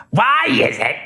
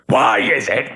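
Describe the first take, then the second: First: High strained comic shriek; a screeching stand-up comic voice; Gilbert Gottfried. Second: The same line pitched down like Lewis Black; the deeper version of the screech. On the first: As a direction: squeeze it up high and nasal-free. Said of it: "That, that's Gilbert Gottfried". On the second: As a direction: lower comic rant voice. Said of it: "Lewis Black was lower". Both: Shown as a demonstration.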